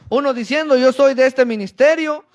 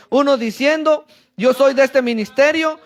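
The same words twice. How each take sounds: The two takes are said the same way.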